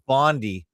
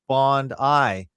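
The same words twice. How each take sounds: First: The name ends with an 'ee' sound. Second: The name ends with an 'eye' sound. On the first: This is how North Americans say it. The speaker calls it wrong. "as I hear most people in North Amer America and or Canada pronounce it" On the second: This is how Australians say it. The speaker calls it right. "we pronounce Bondi like Bond-I"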